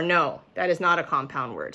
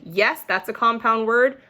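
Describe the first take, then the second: First: "No, that is not a compound word" with not stressed, falling; firm no. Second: "Yes, that's a compound word" rising brightly at word; upbeat affirming tone ending on a rise; cheerful yes. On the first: Teacher modeling the firm no answer. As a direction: lean on not and let it drop. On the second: Teacher modeling the happy yes answer. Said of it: "it's either gonna be". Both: Shown as a demonstration.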